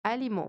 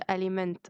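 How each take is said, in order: First: The ending is a nasal vowel with no consonants. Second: The ending is a full 'ment' with consonants. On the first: The speaker calls it right. "ال M E N T بتتنطق مو" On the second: The speaker calls it wrong. "مش اسمهاش aliment"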